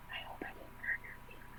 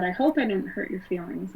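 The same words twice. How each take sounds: First: Quick, breathless whisper with a sly edge; evil nasty whisper. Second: Said in the usual way. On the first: Retold or imitated. Stepmother leans in to taunt her, in an evil whisper. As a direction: hiss it sweetly into her ear, all menace. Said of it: "evil, nasty whisper". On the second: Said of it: "in a whisper".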